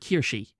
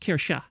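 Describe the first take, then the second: First: The name ends with an 'ee' sound. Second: The name ends with an 'uh' sound. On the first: The speaker calls it wrong. "like with a with a hard e" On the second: The speaker calls it right. "no, it's Kirsha"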